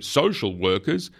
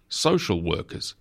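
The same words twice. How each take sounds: First: Slow, higher, scornful rising tone; spat out. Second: Said in the usual way. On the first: A narrator's reading. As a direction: spit it out slowly with disdain. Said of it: "Hamilton spat out".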